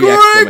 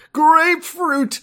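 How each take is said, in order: First: It is shouted loudly with strong energy. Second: It is said at a normal, moderate volume.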